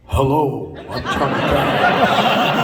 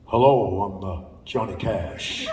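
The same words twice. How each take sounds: First: Slow, laughing mock [name], said more plainly; [name] greeting. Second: Deep [name] impression. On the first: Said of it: "He was like". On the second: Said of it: "Ah, no, actually, he didn't do that".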